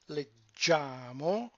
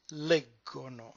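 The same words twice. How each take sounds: First: Slow "leggiamo" stressed on GIA, led-JA-mo; stress on the second-to-last syllable. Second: "leggono" stressed on LEG, LEG-go-no; stress on first syllable. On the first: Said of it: "the stress move". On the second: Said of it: "the stress moves one syllable up". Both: Shown as a demonstration.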